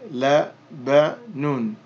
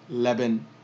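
First: The word ends with a final -un sound. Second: The word ends on n with no -un. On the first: "So we would say Labanun" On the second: "we're not going to pronounce that. So we would simply say Laban"

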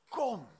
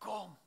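First: The word sounds firm and commanding. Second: The word sounds full of deep longing. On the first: The father calls with authority. "En ook met autoriteit" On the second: The father deeply wants the person to come. "Die roept met zo'n diep verlangen"

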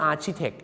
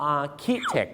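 First: The 'ch' is pronounced as a ch sound. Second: The 'ch' is pronounced as a k sound. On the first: The speaker calls it wrong. "ชาวไทยบางคนนึกว่า" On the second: The speaker calls it right. "ออกเสียงว่า"

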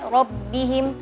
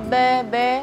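First: The vowel after b is a clear i. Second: The vowel after b sounds like e. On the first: The speaker calls it right. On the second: The speaker calls it wrong.

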